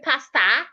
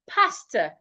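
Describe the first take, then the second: First: The final vowel is open, like 'pasta'. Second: The final vowel is weak with mouth closing. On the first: The speaker calls it wrong. "do not say pasta" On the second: The speaker calls it right. "say pasta"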